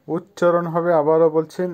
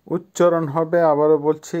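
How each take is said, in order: Both takes have the same delivery.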